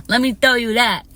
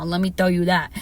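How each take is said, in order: First: "Let me tell you that" said louder and higher, leaning on tell; louder insisting. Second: Said in the usual way. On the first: Shown as a demonstration. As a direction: punch it out, mock-boastful. Repeats with more force.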